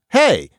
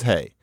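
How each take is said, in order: First: The word is said with strong emphasis. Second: The word is said low without emphasis. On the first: It calls for attention. "Hey, not that, but hey without that emphasis" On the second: It is a tag at the end of a statement. "That little hey where it's down on the intonation contour"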